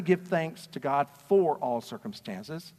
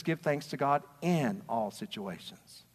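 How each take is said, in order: First: Said in the usual way. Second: Slow, with the word "in" leaned on and falling; slowed down, "in" made the key word; stress on in. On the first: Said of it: "It says". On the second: Shown as a demonstration. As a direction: hit "in" to set it against "for". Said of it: "It doesn't say".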